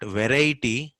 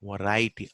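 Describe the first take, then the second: First: Variety with a clear "ve" first; full first vowel in slow "variety"; wrong full vowel. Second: Variety as "vuh-RAI-tee"; reduced vowel. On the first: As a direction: say "variety" as "veh-rai-tee", stretched. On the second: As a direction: say "variety" with a weak first vowel. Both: Shown as a demonstration. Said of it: "not variety".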